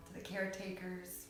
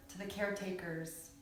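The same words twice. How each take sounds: The two takes are said the same way.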